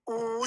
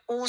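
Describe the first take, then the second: First: "u" stretched into a long, held oo. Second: A brief "u" vowel, as in "kush"; short u. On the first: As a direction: draw the "u" out as a steady ooo. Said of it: "It gives a long u sound". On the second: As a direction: keep the "u" short, without stretching it. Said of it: "It gives a short u sound". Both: Shown as a demonstration.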